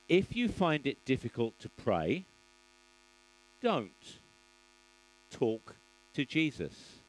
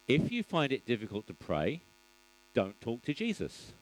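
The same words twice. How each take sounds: First: There is a pause after "don't". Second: There is no pause after "don't".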